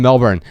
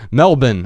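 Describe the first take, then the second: First: Said in the usual way. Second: Melbourne said the local way, as MEL-bin; "Melbourne" with a clipped, r-less second syllable; Australian pronunciation. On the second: Shown as a demonstration. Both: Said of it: "as the kids are saying these days".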